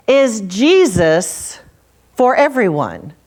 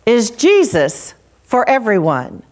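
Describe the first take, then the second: First: Very slow, with a long pause after Jesus; slow pondering question. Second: Jesus weighted, falling to a firm close; stress on Jesus. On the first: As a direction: let each word hang, drawn out and searching. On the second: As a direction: lean on Jesus and bring the question down. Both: Shown as a demonstration. Preacher repeats the question twice.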